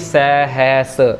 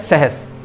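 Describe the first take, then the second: First: The first vowel is a long full 'ai' sound. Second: The first vowel is a short, softened sound. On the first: The speaker calls it wrong. "अगर हम दुलावा पढ़ेंगे तो उसकी sound आ जाएगी सहस, क्योंकि वो लंबी साउंड है" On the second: The speaker calls it right. "यह है सहस।"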